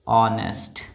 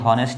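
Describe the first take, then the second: First: The initial h is silent. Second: The initial h is sounded. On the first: The speaker calls it right. "ये है ऑनेस्ट" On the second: The speaker calls it wrong. "ये हॉनेस्ट नहीं है"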